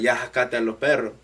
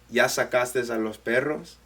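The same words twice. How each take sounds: First: It is said in the dad's Salvadoran way. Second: It is said in regular standard Spanish.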